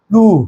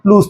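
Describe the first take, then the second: First: The word ends on the vowel, no s. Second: The word ends with an audible s sound. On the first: The word is used in a negative sense. "নেগেটিভ হিসেবে ইউজ হয় তখন উচ্চারণটা প্লু হয়" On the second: The word is used in a positive sense. "পজিটিভ হিসেবে ব্যবহৃত হয় তখন সেটা প্লুস"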